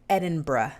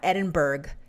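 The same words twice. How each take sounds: First: The name is said with the local pronunciation. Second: The name is said with an outsider's pronunciation. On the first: The speaker calls it right. "That's how you pronounce that. It's Edinburgh" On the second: The speaker calls it wrong. "It's not Edinburgh"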